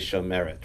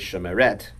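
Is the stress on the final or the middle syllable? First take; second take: middle; final. First: The stress is on the middle syllable. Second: The stress is on the final syllable. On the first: The speaker calls it right. "you say shomeret" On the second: The speaker calls it wrong. "You don't say shomeret"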